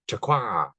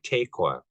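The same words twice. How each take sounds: First: The stress falls on the last syllable. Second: The stress does not fall on the last syllable. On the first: The speaker calls it right. "that acute accent marker where it's supposed to be" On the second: It means octopus. The speaker calls it wrong. "instead of"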